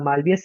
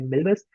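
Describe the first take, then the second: First: It is said with three syllables, starting 'mal'. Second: It is said with two syllables, starting 'mil'. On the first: The speaker calls it wrong. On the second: The speaker calls it right.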